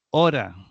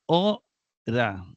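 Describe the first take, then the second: First: Said in the usual way. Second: "ora" broken as o, pause, ra; "ora" slowly, syllable by syllable; split into syllables. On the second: Shown as a demonstration. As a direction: say "ora" in two separate syllables, stressing o. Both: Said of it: "lleva un acento agudo en la penúltima".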